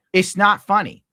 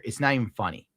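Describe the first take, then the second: First: Higher and louder, real exasperation; worked up. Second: Said in the usual way. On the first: Real, not acted. Streamer venting to chat about potholes, higher and louder. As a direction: blurt it out, fed up. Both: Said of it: "I'm, like, getting worked up".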